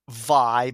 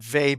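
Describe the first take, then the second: First: The name rhymes with buy. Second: The name rhymes with bay. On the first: It follows how the Japanese kana is written. "some people pronounce it Vi because of how the Japanese kana is written" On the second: It follows how the English spelling looks. "I usually said Vei because when I see V A Y, uh, my I immediately pronounce it like Bay"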